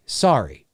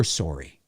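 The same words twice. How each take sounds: First: "sorry" spelt out as SAR-ee; low, open "ah" in sorry; American vowel on sorry. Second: "sorry" as SORE-ee, low and soft; rounded "o" in sorry; quiet Canadian SORE-ee. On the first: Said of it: "it's like S A R R Y". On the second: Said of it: "We're sorry". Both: Shown as a demonstration.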